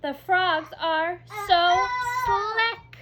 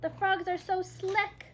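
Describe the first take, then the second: First: High, loud, slow and sing-song; exclamation read with delight; with excitement. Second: Said in the usual way. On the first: Shown as a demonstration. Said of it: "We say that with excitement". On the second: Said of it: "Remember, slick means slippery".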